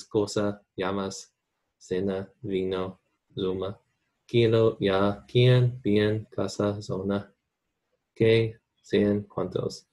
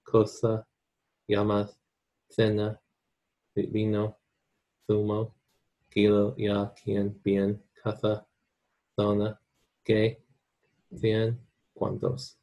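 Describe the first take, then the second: First: Latin American accent. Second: Castilian Spanish, c and z in "cena, zona" said as th; lisped Castilian th in "cena" and "cien", word by word; Spain accent. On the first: Teacher shows students the word list in a Latin American accent. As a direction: say "cena" and "zona" with an s, Latin American style. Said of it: "I mostly have a Latin accent". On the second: Teacher shows students the word list in a Spain accent. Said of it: "But in Spain accent, it's gonna be". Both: Shown as a demonstration.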